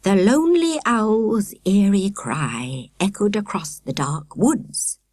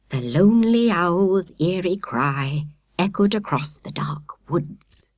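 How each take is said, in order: First: Slow eerie telling; slow spooky storyteller. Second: Hushed, slow, eerie whisper; trembling spooky whisper. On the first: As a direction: draw out the ghost story. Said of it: "Akela repeated". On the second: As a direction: whisper it slowly like a ghost story. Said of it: "Akela began in a trembling voice". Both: A narrator's reading.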